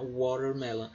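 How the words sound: The t sounds like a quick r sound. This is how it is said in the United States. "como se esse T se transformasse num R"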